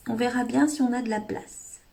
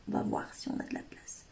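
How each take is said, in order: First: Said in the usual way. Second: A soft whispered aside; whispered repeat under the breath. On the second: Shown as a demonstration. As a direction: whisper it to yourself, much softer.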